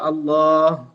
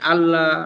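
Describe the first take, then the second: First: The word is said in full with its long vowel. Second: The word is clipped, with sounds dropped or shortened. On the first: The speaker calls it right. "pertamanya dia baca Allah" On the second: The speaker calls it wrong. "kemudian nanti ya menjadi Allah"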